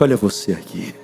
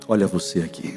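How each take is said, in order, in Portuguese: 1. É dita mais alto e com mais força. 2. É dita em volume normal.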